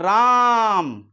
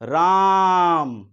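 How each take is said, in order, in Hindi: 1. स्वर को रोककर खींचकर बोला गया है। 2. स्वर को रोककर खींचकर बोला गया है।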